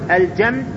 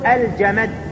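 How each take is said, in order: First: The m has no vowel after it. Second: The m is followed by a vowel. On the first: "إذا قلت الجمد سكنت الميم" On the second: "إذا قلت الجمد هنا حركت الميم"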